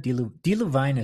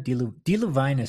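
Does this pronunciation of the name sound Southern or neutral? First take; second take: Southern; Southern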